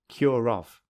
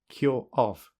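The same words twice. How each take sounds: First: An r sound joins the two words together. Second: The words are said with no r between them. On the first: "secondly with linking" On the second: "Firstly without linking"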